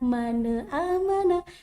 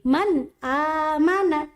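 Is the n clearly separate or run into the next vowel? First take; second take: run together; separate. First: The n runs into the following vowel. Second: The n is held clearly before the vowel. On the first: The speaker calls it wrong. "Bukan dibaca mana amana" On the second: The speaker calls it right. "tetapi man amana"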